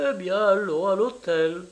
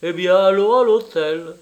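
First: Higher-pitched, scornful retort; contemptuous. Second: Loud, higher, mocking retort; irritated. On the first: A narrator's reading. Italian woman accepts the hotel, contemptuous. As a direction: throw it back with disdain. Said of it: "du ton le plus méprisant". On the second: Traveller quotes the woman's answer to his friend, irritated. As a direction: imitate her irritation at full voice. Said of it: "du ton le plus irrité".

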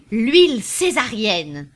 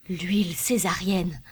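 First: Louder, slow, ringing out the name; proud cry. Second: Said in the usual way. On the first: A narrator's reading. Popinot crying out the oil's new name. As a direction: announce the product like a banner. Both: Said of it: "cria Popinot".

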